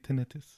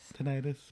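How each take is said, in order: First: It is said the way British people say it. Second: It is said the usual, non-British way.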